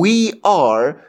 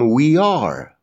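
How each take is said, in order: First: The two words are said separately. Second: The two words are run together. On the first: The speaker calls it wrong. "به جای اینکه بگم we are" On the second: The speaker calls it right. "کلمه ها رو به هم میچسبونم"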